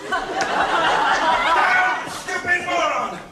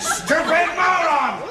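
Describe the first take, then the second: First: Much higher, louder, very slow drawn-out yell; drawn-out furious shout. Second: Much higher, louder, slow furious shout. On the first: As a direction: stretch every word of the insult out, yelling. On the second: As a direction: explode at the fool, yelling. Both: Acted. Furious doctor rants at assistant.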